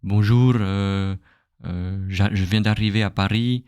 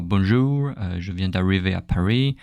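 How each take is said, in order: First: Imitating a foreigner's French with a wrong R; mock learner saying "bonjour, je viens d'arriver à Paris" with an English R; foreign accent. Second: Another imitated learner with a wrong R; lightly voiced foreigner saying "bonjour, je viens d'arriver à Paris" with an off R; foreign accent. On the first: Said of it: "they will speak like". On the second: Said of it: "the R is not correct".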